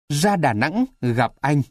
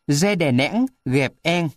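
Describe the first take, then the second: First: The a vowels are pronounced as a. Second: The a vowels are pronounced like e.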